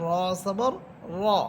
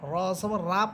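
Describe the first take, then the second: First: The final vowel is a heavy rounded o. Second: The final vowel is an open aa. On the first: The speaker calls it right. "বরং এখানে পড়তে হবে র জবর র" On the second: The speaker calls it wrong. "রা পড়লে এটা ভুল উচ্চারণ"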